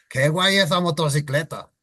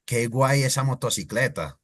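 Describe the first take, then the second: First: Castilian accent, lifted pitch; Spain Spanish accent. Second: Said in the usual way. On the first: Shown as a demonstration. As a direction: imitate a Spaniard. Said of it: "imitating them because that's how they sound". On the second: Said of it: "In Spanish accent".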